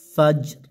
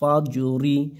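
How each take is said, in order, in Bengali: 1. শব্দটি 'র' ধ্বনি দিয়ে শেষ হয়। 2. শব্দটি একটি হ্রস্ব 'ই' স্বরধ্বনি দিয়ে শেষ হয়। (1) "এখানে যদি আমরা থেমে যাই, অক্ফ করি" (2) "রজের রি"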